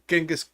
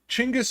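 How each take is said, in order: First: The name starts with a j sound. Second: The name starts with a ch sound. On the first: The speaker calls it wrong. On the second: The speaker calls it right.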